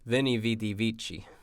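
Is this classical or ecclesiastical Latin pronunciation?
ecclesiastical. It uses modern ecclesiastical Latin pronunciation.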